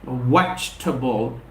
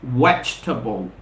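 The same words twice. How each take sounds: First: The second vowel is dropped and silent. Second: The second vowel is dropped and silent.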